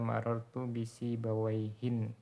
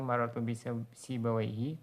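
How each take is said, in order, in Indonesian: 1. Kata terakhir berakhir dengan tambahan bunyi n. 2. Kata terakhir berakhir dengan vokal biasa. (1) "Apabila engkau tanwin kana nakirotan" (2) "tanpa tanwin"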